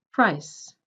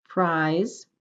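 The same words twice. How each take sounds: First: "price" with a clipped vowel cut off by the s; short vowel before voiceless s. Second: "Prize" with a stretched vowel and buzzing z; long vowel before voiced z. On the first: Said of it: "second one ... shorter". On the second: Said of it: "first word will sound longer". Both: Shown as a demonstration.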